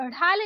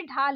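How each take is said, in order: First: ढाल opening on flapped ढ़; wrong flapped ढ़. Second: ढाल opening on aspirated DH; correct stopped ढ. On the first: Teacher showing learners the mistake, flapped ढाल. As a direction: flick into ढाल. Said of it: "नहीं होता है". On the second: Teacher correcting learners, stopped ढाल. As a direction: start ढाल with firm ढ, no flap. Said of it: "होता है". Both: Shown as a demonstration.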